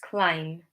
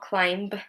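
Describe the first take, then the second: First: The word ends with only an M sound. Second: A B sound is pronounced at the end. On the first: The speaker calls it right. "it's climb. We just have an M sound at the end" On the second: The speaker calls it wrong. "it's not climb"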